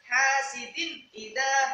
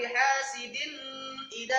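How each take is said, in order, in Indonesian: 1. Huruf n sebelum idha dibaca jelas. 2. Huruf n sebelum idha tersembunyi dan didengungkan. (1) "Harus jelas" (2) "itu juga salah"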